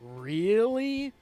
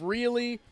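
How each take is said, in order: First: The word is drawn out long. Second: The word is said quickly.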